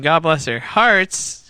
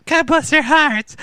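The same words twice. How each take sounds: First: Said in the usual way. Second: High mock Wisconsin accent on God bless their hearts; imitating northern Wisconsin girls, much higher. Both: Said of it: "They sounded like Canadians".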